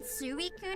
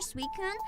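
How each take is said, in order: First: The first part is two separate vowel sounds. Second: The first part sounds like the word sweet.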